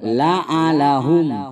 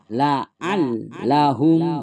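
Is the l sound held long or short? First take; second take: short; long. First: The l is short with little pressure. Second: The l is pressed and held long. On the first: The speaker calls it wrong. "kurang tekan, kurang tahan" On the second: The speaker calls it right. "ditekan ditahan"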